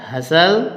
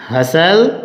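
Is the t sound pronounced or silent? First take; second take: silent; silent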